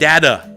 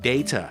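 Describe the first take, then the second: First: The middle consonant sounds like a d. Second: The middle consonant is a clear t. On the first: "ชาวอเมริกันบางคนตัวทีเวลาอยู่ตรงกลางจะเป็นเสียงดอเด็ก" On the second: "ถ้าชาวโลกจะเป็น"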